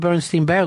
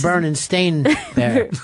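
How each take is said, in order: First: The name's second part sounds like 'stine'. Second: The name's second part sounds like 'stain'. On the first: The speaker calls it wrong. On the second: The speaker calls it right.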